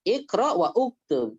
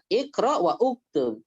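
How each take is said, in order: First: The glottal stop before uktub is pronounced separately. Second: The same.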